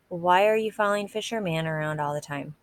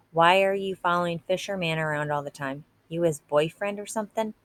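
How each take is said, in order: First: Said in the usual way. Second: Pushier, a little louder taunt; a bit louder. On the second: Acted. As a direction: press harder, voice raised a notch. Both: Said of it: "His voice got a little louder".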